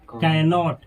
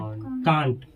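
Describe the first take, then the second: First: It is said as two full syllables. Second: It is said as one short contracted syllable. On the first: "ये है कैनॉट" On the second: "इसको पढ़ा जाता है कांट"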